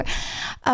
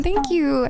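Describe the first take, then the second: First: Breathy whispered thanks. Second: Said in the usual way. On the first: Real, not acted. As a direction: drop to a whisper. Repeated thanks, last one whispered.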